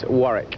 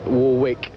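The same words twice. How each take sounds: First: The second W is silent. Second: The second W is pronounced. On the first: This is how his own name is said. The speaker calls it right. "you don't pronounce the second W" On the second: This is how the singer's name is said. The speaker calls it wrong. "It's not uh, as Dion"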